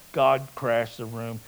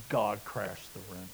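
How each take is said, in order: First: Said in the usual way. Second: Hushed. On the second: Acted.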